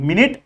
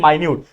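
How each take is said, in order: First: The first syllable sounds like 'min'. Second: The first syllable sounds like 'my'. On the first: It names a unit of time. "ये मिनट का मतलब होता है जो हमारे घड़ी में मिनट्स होते हैं" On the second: It means very small. "बोलने का तरीका भी अलग है"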